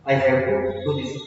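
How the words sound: Have to is joined, with a pause after to. The speaker is obliged to do the work. "हैव टू को आपने इकट्ठा बोलना है, हल्का सा विराम देना है"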